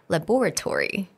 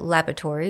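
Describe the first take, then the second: First: It is said with a British stress pattern. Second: It is said with an American stress pattern. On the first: "in the U K we said laboratory" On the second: "in the U S we said laboratory"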